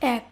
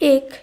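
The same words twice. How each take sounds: First: The first vowel is an open e sound. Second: The first vowel is a closed e sound. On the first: The speaker calls it right. "এর শুদ্ধ উচ্চারণ হবে এক" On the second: The speaker calls it wrong. "এক এটি হবে না"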